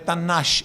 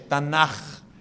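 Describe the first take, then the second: First: The word ends with a soft hushing 'sh' sound. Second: The word ends with a strong throaty 'kh' sound. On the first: The speaker calls it wrong. "Esse C H não é Tanash" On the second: The speaker calls it right. "é Tanakh. Bem puxado o Tanakh"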